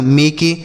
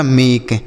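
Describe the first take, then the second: First: मेके as two syllables, ending in a long e; wrong pronunciation demo. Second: Said in the usual way. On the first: Shown as a demonstration. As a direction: add a spoken e to the end of मेके. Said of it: "इसे मेके तो नहीं पढ़ रहे". (मेके के अंत का ए बोलकर गलत उच्चारण) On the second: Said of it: "तो यह हो गया मेक".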